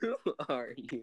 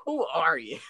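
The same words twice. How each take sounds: First: Quiet echo. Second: Sharp, higher demand; mock indignant challenge. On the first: Retold or imitated. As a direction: murmur it back. Friend echoes quote softly. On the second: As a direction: confront her, offended. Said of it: "He's just like".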